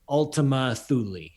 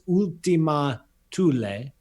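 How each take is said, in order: First: The name is said the more common way. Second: The name is said the original Latin way. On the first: "the more common pronunciation is" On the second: "the original Latin pronunciation of this target is"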